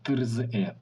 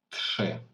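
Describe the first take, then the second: First: It is said with separate r and z sounds. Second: It is said with a hard sh sound. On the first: The speaker calls it wrong. "Але бачите там трзи" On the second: The speaker calls it right. "в цьому слові має читатися як Ш"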